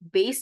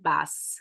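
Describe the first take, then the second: First: The vowel is the long 'ay' of 'base'. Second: The vowel is the short 'a' of 'bat'. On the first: The speaker calls it wrong. "उसको बेस भी नहीं बोलते हैं" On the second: The speaker calls it right. "Basically होता है बैस"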